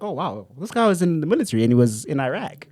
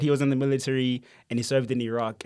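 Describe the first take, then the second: First: Imitated American accent, caught by accident; American twang, ending on eye-rack. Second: Said in the usual way. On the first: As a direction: slip into an American accent, impressed. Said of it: "why am I speaking like that?". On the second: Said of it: "But you know how they say".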